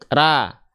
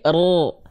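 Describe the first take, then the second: First: A thin, light syllable with an open a vowel. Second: A heavy, dark syllable with an o-like vowel. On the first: "Kalau pangkal lidahnya nggak naik" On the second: "Kalau pangkal lidah naik"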